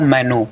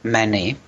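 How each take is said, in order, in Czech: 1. Poslední samohláska je obyčejné české u. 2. Poslední samohláska je zaoblené ü, podobné francouzskému. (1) "jenom v míň oficiálních projevech" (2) "tu původní výslovnost menu"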